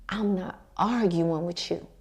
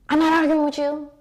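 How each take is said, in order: First: It sounds calm and unhurried. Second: It sounds tense and argumentative.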